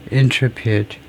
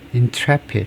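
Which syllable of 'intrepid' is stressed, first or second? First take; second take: first; second. First: The stress is on the first syllable. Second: The stress is on the second syllable. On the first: The speaker calls it wrong. "제가 발음을 잘못 알고 있었네요" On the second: The speaker calls it right. "second syllable에 스트레스가, word 스트레스가 있다"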